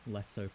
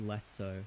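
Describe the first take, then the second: No difference in how they are said.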